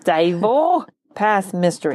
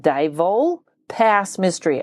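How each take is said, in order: First: A slow try at "Dyatl" with a German ring; slightly German. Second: "Dyatl" said slowly and carefully; slow careful try at "Dyatl"; unsure foreign name. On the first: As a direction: say "Dyatl" slowly, as if a little German. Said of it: "That sounded a little German". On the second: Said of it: "I'm sure I'm saying Dyatl wrong". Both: Shown as a demonstration.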